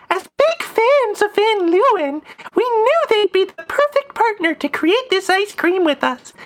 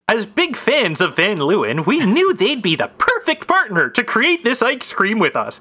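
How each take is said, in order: First: It is read in a put-on woman's voice. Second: It is read in a put-on man's voice.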